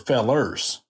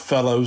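First: The word ends with an er sound. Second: The word ends with an oh vowel. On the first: "If we're on a good day, we're fellers" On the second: "We are not fellows ourselves"

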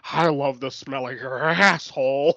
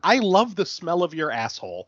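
First: The last word is barked out loudly. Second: The last word is said plainly.

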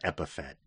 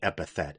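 First: The word ends like 'Fett', with no 'th'. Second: The word ends with a 'th' sound. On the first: The speaker calls it wrong. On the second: The speaker calls it right.

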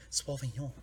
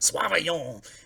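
First: It is said plainly, without an exaggerated accent. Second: It is said with an exaggerated fancy French accent.

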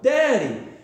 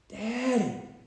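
First: It is hollered loudly. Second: It is said at a normal, quiet level.

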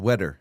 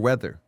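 First: The middle consonant is a D sound. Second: The middle consonant is a TH sound. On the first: "They say duh" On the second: "pronounce the TH hard like we do"

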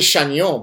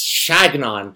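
First: The name is pronounced with French sounds. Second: The name is pronounced with English sounds. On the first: The speaker calls it wrong. "I say Chagnon, but apparently he doesn't like when you pronounce it the French way" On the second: The speaker calls it right. "He likes Chagnon"

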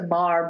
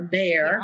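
First: The vowel sounds like 'ar'. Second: The vowel sounds like 'air'. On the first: This is how locals say the word. "It's a bar, B-A-R" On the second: This is the standard way to say the word. "is never pronounced that way"

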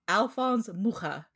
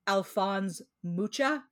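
First: The name is said in its native way. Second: The name is said in an anglicized way. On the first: The speaker calls it right. "It's Alphonse Mucha. Again, because of where he's from" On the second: The speaker calls it wrong. "It's not Alphonse Mucha"

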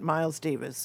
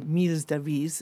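First: The name has an English pronunciation. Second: The name has a French pronunciation.

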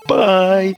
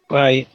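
First: It is said with passion and energy. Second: It is said flatly, without energy.

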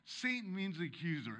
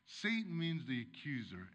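First: It is read too fast. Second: It is read more slowly.

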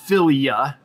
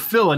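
First: The ending is said 'filia' with an extra syllable. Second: The ending is said 'fila' with no extra syllable. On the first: The speaker calls it wrong. "not philia. Oh, no wonder I'm saying it wrong" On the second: The speaker calls it right. "or phila"

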